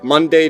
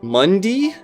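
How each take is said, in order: First: The second syllable rhymes with say. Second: The second syllable rhymes with see. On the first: "so it rhymes with say" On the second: "rhymes with C"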